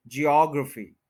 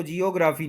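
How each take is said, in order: First: geography as jee-AWG-ruh-fee, falling; stress on OG. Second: geography as quick jee-o-GRAA-fee; jee-o-graa-fee, no AWG stress, for geography; mispronunciation. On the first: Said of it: "यानी इसको geography नहीं बोलेंगे". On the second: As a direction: say geography with full long "graa". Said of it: "इसको geography नहीं बोलेंगे". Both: Shown as a demonstration.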